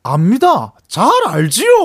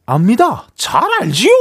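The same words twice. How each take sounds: First: Jo Junhyun impression. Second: Bright forward comedian impression; Jo Junho impression. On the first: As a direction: voice placed at the back of the throat. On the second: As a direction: voice placed forward in the mouth. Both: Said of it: "아까 그 성대모사 하신 거 한 번만".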